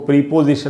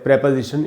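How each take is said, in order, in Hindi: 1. पहले अक्षर में लंबा 'ee' स्वर है। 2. पहले अक्षर में छोटा 'eh' स्वर है। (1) "इसको प्रीपोजिशन नहीं पढ़ना चाहिए" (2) "इसका भी जो उच्चारण है सही, वो है प्रेपोजिशन"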